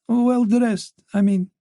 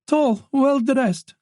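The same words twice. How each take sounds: First: Said in the usual way. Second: "Tall, well-dressed" drawn out slowly, higher, each word leaned on; said quickly. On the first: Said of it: "correcting herself". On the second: Acted. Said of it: "Missus Lacroix said quickly".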